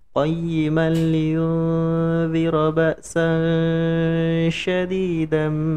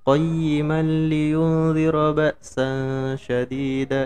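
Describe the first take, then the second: First: The nasal before 'z' is held long. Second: The nasal before 'z' is cut short. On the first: The speaker calls it right. "harusnya ditahan dulu. Eh, dua ketukan atau tiga ketukan" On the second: The speaker calls it wrong. "itu enggak enggak ditahan"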